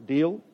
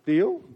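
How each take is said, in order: First: Said in the usual way. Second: Higher, louder Deal? pushing for an answer; rising prompt for a response; louder insistent ask. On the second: Real, not acted. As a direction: call out Deal? to get the congregation to reply.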